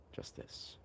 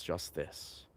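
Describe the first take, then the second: First: Breathy whispered echo of just this. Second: Said in the usual way. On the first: Shown as a demonstration. Echoing Ram Dass's words in a hushed whisper. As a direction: whisper it back like a mantra. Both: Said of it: "a nice play on words with justice and just this".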